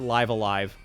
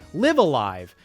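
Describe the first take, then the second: First: 'Live' rhymes with 'five', not like the verb. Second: 'Live' rhymes with 'give', like the verb. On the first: The speaker calls it right. "you have to pronounce it Live Alive" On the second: The speaker calls it wrong. "I thought the way you pronounce it was Live Alive"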